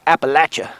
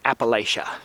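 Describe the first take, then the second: First: It is said the way locals pronounce it. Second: It is said the way outsiders pronounce it.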